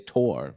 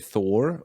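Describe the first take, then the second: First: The name starts with a plain T sound. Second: The name starts with a TH sound. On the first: "or you say Tor" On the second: "you can pronounce it in English and say Thor"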